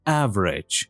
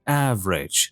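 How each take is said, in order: First: It is said with two syllables. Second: It is said with two syllables.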